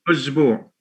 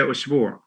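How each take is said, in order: First: The second consonant is a voiced z. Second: The second consonant is a voiceless s. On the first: This is the form used in the Egyptian dialect. "they change the sa to za sometimes" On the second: This is the form the dialect does not use. "they don't say usbu'"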